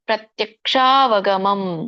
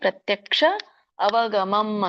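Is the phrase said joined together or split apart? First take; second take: joined; split. First: The words are run together into one word. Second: The words are said separately as two words.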